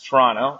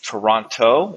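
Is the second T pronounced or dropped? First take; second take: dropped; pronounced. First: The second T is dropped, like a Toronto local. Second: Both T sounds are clearly pronounced, tourist-style.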